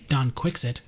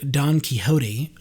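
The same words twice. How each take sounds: First: The name is pronounced with English sounds. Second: The name is pronounced with Spanish sounds. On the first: The speaker calls it wrong. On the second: The speaker calls it right.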